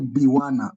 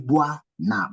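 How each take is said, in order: First: The opening is split into separate syllables. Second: The opening is glided together as one syllable. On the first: The speaker calls it wrong. "You don't say Biwana" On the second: The speaker calls it right. "You say Buana ... it becomes as one syllable"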